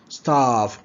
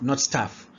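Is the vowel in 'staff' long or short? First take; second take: long; short. First: The vowel is long and drawn out. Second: The vowel is short and clipped. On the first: The speaker calls it right. "it needs to be prolonged" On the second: The speaker calls it wrong.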